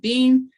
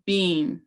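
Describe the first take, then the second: First: The pitch does not rise and fall. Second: The pitch rises and then falls. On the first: The speaker calls it wrong. "So it's not being" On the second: The speaker calls it right. "It goes up and down"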